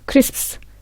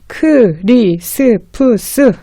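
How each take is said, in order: First: The word is said very fast and compressed. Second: The word is said slowly, sound by sound. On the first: The speaker calls it right. "이렇게 굉장히 빨리 합니다" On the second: The speaker calls it wrong. "아무도 그렇게 천천히 얘기 안 해요"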